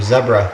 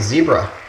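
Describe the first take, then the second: First: It is said with a British accent. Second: It is said with an American accent.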